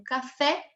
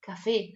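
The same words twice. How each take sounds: First: CAFÉ ending in an open E, as in Portuguese. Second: CAFÉ ending in a closed Spanish E. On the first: Teacher showing the Portuguese accent effect, open E in "café". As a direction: say "café" with a wide final E. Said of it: "o acento ele muda o som da vogal". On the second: Teacher correcting for Spanish, closed E in "café". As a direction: say "café" with a narrow final E, like "ê". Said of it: "mas se diz". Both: Shown as a demonstration.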